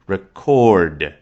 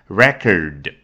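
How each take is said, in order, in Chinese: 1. 重音在第二个音节。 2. 重音在第一个音节。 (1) "那如果是放在第二个音节record，那就好像对应一种动作" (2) "如果它的重音是放在开头，比如说record，那就是名词"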